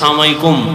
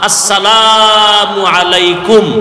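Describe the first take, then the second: First: The greeting is clipped, with syllables run together. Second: Every syllable of the greeting is fully pronounced. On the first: A curse upon you. The speaker calls it wrong. "Style করে" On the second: Peace be upon you. The speaker calls it right. "শুদ্ধ করে"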